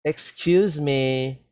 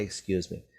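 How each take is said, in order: First: Slow, polite "Excuse me" with weight on "Excuse". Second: A softer, lower "Excuse me" said as a quick model; soft example. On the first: A narrator's reading. Girls politely get the museum worker's attention, slowly. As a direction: ask politely for the tall woman's attention. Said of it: "a good idea to always say". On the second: Shown as a demonstration. Teacher models the phrase for young learners, softly. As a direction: model the phrase gently for the class. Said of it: "always say".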